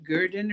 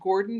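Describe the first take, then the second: First: The first vowel sounds like 'ur'. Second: The first vowel sounds like 'or'. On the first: This is how the locals say the name. The speaker calls it right. "but it's like Gurdon or something like that" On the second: This is how many people say the name. The speaker calls it wrong. "a lot of people pronounce it Gordon"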